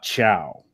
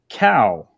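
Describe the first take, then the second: First: The word begins with a ch sound. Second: The word begins with a k sound. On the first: The speaker calls it wrong. "and not chow" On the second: The speaker calls it right. "that is pronounced cow"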